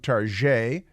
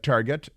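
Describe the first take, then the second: First: It is pronounced the French way. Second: It is pronounced the plain English way. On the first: "the French pronunciation came along" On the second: "It used to be"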